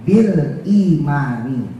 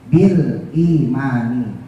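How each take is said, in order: The two takes are said the same way.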